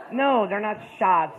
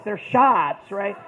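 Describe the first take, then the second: First: Shots said slow and deliberate; slow denial. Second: Shots hit louder; louder insistence. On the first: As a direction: drag out the word shots. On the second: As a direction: punch the word shots. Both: Retold or imitated. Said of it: "Like, shots?".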